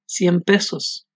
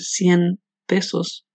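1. Cien termina en sonido m. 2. Cien termina en sonido n. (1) "reemplazo el sonido de la letra N por el sonido de la letra M" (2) "si en lugar de decir 100 pesos"

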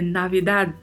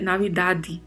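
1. O D final é fraco, sem vogal depois. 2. Um som de vogal vem depois do D final. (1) "é Navidad. O D, ele meio que se perde na pronúncia" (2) "não podemos falar Navidad, né, Navidade"

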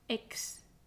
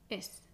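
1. La x se pronuncia como k más s. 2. La x se pronuncia como una s simple. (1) "más enfática" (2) "pronunciar la X como una S"

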